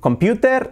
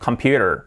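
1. Se pronuncia a la española. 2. Se pronuncia a la inglesa. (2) "Mejor decir"

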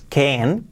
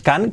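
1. La vocal suena parecida a una 'e'. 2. La vocal suena como una 'a' española sencilla. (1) "que es can" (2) "que no es can"

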